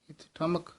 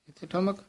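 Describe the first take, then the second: The two takes are said the same way.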